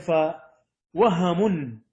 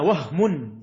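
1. الحرف 'h' متبوع بفتحة قصيرة. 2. الحرف 'h' غير متبوع بأي حركة. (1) "بفتح الحاء" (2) "بإسكان الهاء"

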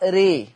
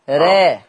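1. الصوت مائل تماماً نحو 'e'. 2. الصوت في المنتصف بين 'a' و'e'. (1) "ولو أنا هعمل إمالة كبرى ري" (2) "ولو أنا هقلل راء"

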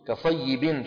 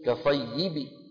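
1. تنتهي الكلمة بحركة يتبعها صوت النون. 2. تنتهي الكلمة بحركة قصيرة وخفيفة. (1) "التنوين يحذف" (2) "شو بتصير؟"

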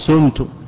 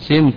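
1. الحركة الأولى ضمة. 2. الحركة الأولى كسرة. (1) "ولا يجوز الضم فلا تقول سمت" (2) "كسر الفاء"

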